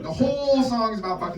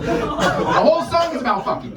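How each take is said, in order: First: Said in the usual way. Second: Slow and high, cracking up; incredulous laughing repeat. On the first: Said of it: "repeats it for emphasis". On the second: Real, not acted. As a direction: push it out through laughter. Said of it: "repeats the line laughing".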